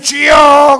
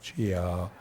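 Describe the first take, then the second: First: It is shouted loudly and fervently. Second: It is said quietly and without fervor.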